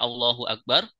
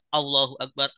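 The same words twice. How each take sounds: First: The first vowel is kept short. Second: The first vowel is drawn out long. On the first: It states that God is great. The speaker calls it right. "kita baca harusnya Allahu Akbar" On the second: It asks whether God is great. The speaker calls it wrong. "salah baca dengan membaca Allahu Akbar, A-nya panjang"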